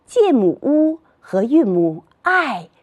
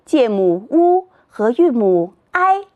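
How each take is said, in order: First: Name "乌", then drop "i" firmly in fourth tone; "介母乌和韵母i" with falling final "i"; pinyin parts named. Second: Name "乌", then hold "i" flat in first tone; pinyin parts named. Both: Shown as a demonstration. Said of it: "三拼音节".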